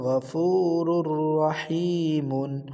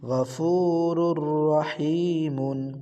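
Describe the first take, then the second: The two takes are said the same way.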